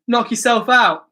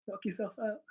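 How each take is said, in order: First: Said in the usual way. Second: Much softer muttered repeat of the punchline; muttered under breath. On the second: Real, not acted. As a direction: say it again to yourself, barely audible.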